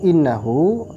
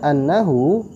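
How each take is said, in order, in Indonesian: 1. Vokal pertama adalah bunyi 'i'. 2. Vokal pertama adalah bunyi 'a'. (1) "innahu dibaca kasrah seperti ini" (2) "kalau kita baca annahu, maka di sini kita mentakdir lam"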